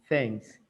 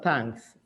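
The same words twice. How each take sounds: First: It begins with a soft th sound. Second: It begins with a plain t sound. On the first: It is the word for gratitude. The speaker calls it right. "use an H" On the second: It sounds like the word for tanks. The speaker calls it wrong. "not thanks"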